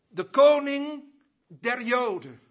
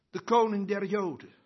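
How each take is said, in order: First: "De koning der Joden" louder, with weight on "koning"; proclaimed emphatically. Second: Said in the usual way. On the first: Shown as a demonstration. Preacher repeats the title to the congregation, proclaiming "koning".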